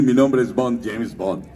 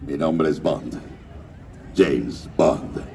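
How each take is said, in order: First: Said in the usual way. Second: Deep, low suave Bond delivery; low smooth secret agent voice; James Bond voice. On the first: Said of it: "no iba a decir". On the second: Shown as a demonstration. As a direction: drop the voice way down, cool spy. Voice actor doing Bond line.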